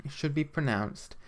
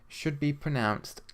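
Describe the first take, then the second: Both takes have the same delivery.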